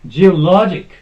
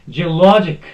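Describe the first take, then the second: No difference in how they are said.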